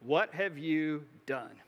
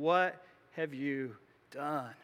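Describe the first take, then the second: First: Slow, grave accusing question; stern prophet's question. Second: Slow, hushed, heavy accusing question; grave prophet's rebuke. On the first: Samuel confronting Saul after the sacrifice, slow and stern. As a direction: confront him slowly, demanding an answer. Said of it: "Samuel says". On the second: Samuel cutting straight to the chase with Saul, slow grave rebuke. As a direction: let the weight of the rebuke sink in. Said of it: "Samuel asks that question". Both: Retold or imitated.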